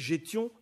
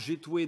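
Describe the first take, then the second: First: The word ends in a nasal ion sound. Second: The word ends in an oué sound. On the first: This is the form used in the Oise. "dans l'oise" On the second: This is the form used around Amiens. "dans l'amiénois"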